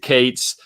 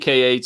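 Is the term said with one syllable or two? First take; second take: one; two. First: It is said as one word rhyming with gates. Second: The letter K is followed by the word eights. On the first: "or pronounce it Kates" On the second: "You'll see K eights all the time"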